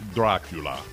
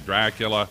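First: The name is said in a dramatic put-on voice. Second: The name is said in a plain ordinary voice. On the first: The speaker calls it right. "It's Dracula" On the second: The speaker calls it wrong. "You can't just say Dracula"

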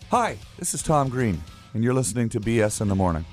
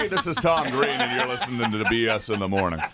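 First: It is said in a plain, normal voice. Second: It is said in a showy radio announcer voice.

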